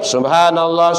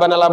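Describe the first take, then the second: First: Every sound of the phrase is clearly articulated. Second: The phrase is rushed and its start dropped. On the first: The speaker calls it right. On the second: The speaker calls it wrong.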